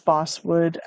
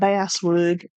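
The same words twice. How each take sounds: First: It is said the non-Southern way. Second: It is said the Southern way.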